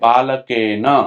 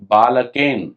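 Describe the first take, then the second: First: The word ends in a full na syllable. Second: The word ends in a bare n consonant. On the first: The speaker calls it right. "ना यहां पर पूरा है, ना में आ जुड़ा हुआ है" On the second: The speaker calls it wrong. "ना पे हलंत है"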